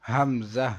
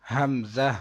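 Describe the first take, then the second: The two takes are said the same way.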